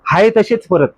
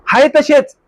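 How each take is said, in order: First: Said in the usual way. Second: तसेच lifted higher with a falling end; emphatic repeat. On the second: Shown as a demonstration. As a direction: throw हाय तसेच up high in dismay. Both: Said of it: "आता काय झालं?".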